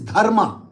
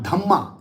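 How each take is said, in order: First: The middle has an r before the m. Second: The middle sounds like a double m, no r. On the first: This is the Sanskrit way of saying it. The speaker calls it right. "it is Dharma" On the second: This is how Buddhists say it. The speaker calls it wrong. "it is not Dhamma"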